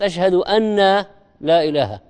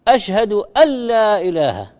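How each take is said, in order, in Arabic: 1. تُنطق النون منفصلة قبل اللام. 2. تُدغم النون في اللام إدغامًا تامًا. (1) "وليست" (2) "نون ساكنة وراها لام فيها إدغام بغير غنة"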